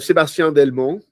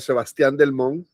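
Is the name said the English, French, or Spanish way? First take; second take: French; Spanish. First: The name is pronounced the French way. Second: The name is pronounced the Spanish way. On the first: This is how the grandfather's name sounded. "my grandfather was uh" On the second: This is how the family in Venezuela says it. "my family in Venezuela was uh"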